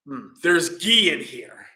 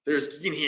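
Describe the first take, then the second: First: Slow, louder "there's ghee in here" with "ghee" leaned on and falling; mock discovery. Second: Said in the usual way. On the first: King tasting the medicine, slow and suspicious.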